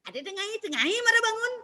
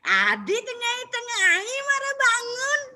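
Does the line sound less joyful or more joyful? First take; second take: less joyful; more joyful. First: It is said with some open joy. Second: It is said with even more open joy. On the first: "Ini membuka" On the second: "Kalau dibuka lagi"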